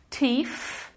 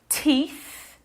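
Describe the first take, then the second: First: The word ends with an 'f' sound. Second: The word ends with a 'th' sound. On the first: The speaker calls it wrong. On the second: The speaker calls it right.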